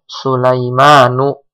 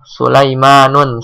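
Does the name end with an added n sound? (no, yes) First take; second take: no; yes. First: The name ends in a plain vowel, no n. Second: The name ends with an added n sound. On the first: The speaker calls it right. "kita tidak boleh membacanya dengan tanwin" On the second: The speaker calls it wrong. "Sulaimanun salah"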